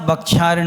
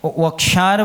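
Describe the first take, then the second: First: The word begins with a b sound. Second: The word begins with a v sound. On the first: The speaker calls it wrong. "बक्षार नहीं बोलना" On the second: The speaker calls it right. "वक्षार बोलना"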